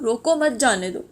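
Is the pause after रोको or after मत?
after मत. There is a pause right after मत.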